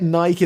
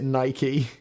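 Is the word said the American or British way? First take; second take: British; American. First: It is said with a British pronunciation. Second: It is said with an American pronunciation. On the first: "We just say it Nike in the U K, and we know it's wrong" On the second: "in America you pronounce it Nike"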